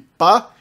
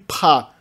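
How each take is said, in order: First: The p is plain, with no puff of air. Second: The p is followed by a puff of air. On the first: "a oclusiva simples" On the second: "a oclusiva aspirada"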